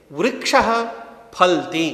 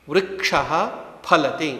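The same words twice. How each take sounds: First: फलति squeezed into फल्ति, the middle a dropped; फलति clipped to two syllables, फल्ति; wrong pronunciation demo. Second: फलति with every syllable, फ-ल-ति; वृक्षः फलति carefully sounded; correct pronunciation. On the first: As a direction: swallow the vowel in फलति. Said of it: "यह उच्चारण अशुद्ध है". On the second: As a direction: say फलति fully, pha-la-ti. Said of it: "आप सभी उच्चारित कीजिए". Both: Shown as a demonstration.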